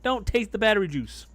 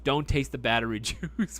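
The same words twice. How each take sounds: First: Loud plea. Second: Says it again, breaking into a laugh; laughing repeat. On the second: Streamer laughingly quoting his own warning back to chat. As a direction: laugh through the word juice. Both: Real, not acted.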